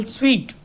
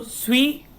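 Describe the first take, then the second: First: Said in the usual way. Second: "sweet" broken as swee, then tuh; split into sounds. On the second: Shown as a demonstration. Teacher showing the two sounds, "sweet" split apart. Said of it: "there are only two sounds".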